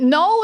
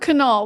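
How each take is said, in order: First: The K is silent. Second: The K is pronounced.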